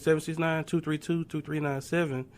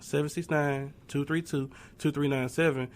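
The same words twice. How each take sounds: First: The number is said at a quicker pace. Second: The number is said at a slower pace.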